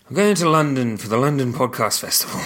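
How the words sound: The voice sounds flat and sad. The speaker calls it wrong. "Don't sound sad about it"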